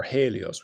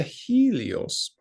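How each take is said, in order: First: "Helios" opening with a HAY sound; corrected pronunciation of Helios. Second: "Helios" opening with a HEE sound; first pronunciation of Helios. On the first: Teacher correcting their own Greek reading, HAY-lee-os. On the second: Teacher reading the Greek passage aloud, HEE-lee-os. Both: Shown as a demonstration. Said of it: "we should say, maybe".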